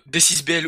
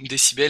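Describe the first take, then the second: First: The name is read as separate letters and digits. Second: The name is read as one whole word. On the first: The speaker calls it wrong. "moi j'ai toujours appelé D six B L" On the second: The speaker calls it right. "alors que ça se prononce décibel"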